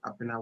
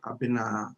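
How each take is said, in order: First: The final A is short. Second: The final A is drawn out long. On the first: The speaker calls it wrong. "we don't say Abina" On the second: The speaker calls it right. "we say Abina. We spread the A at the end"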